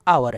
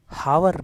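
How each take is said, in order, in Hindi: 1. यह शब्द स्वर की ध्वनि से शुरू होता है। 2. यह शब्द h ध्वनि से शुरू होता है। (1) "आवर है" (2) "ये हावर नहीं"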